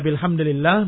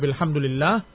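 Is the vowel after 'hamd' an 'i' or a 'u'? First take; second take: i; u. First: The vowel after hamd is an i. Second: The vowel after hamd is a u. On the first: The word takes the case the sentence's grammar requires. "Yang pertama mura'atul lafzihi ... Kalau engkau i'rabkan dengan kasrah" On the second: The quoted phrase is kept unchanged from its original form. "wa tsani mura'atul hikayat ... alhamdu marfu'un 'alal hikayah"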